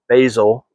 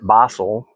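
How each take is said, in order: First: It is said the American English way. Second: It is said the British English way.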